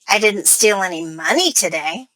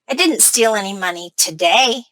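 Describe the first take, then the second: First: The word money carries the main stress. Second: The word today carries the main stress. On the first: The speaker stole something other than money. "That implies that I stole something else, not money" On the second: The speaker may steal on other days. "My stress is on today"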